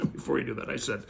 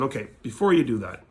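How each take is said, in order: First: Softer repeat through a laugh. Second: Said in the usual way. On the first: Real, not acted. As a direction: chuckle as you repeat it.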